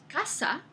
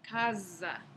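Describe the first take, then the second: First: The middle consonant is a voiceless s. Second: The middle consonant is a voiced z. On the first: This is the modern pronunciation. "la palabra que hoy en día pronunciamos casa" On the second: This is the medieval pronunciation. "En la época medieval se pronunciaba casa"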